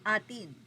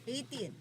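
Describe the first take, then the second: First: It is said like the Tagalog word 'atin'. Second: It is said like the English word 'eighteen'. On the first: "ang pinaka-pronunciation talaga nito ay atin" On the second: "pinopronounce as eighteen"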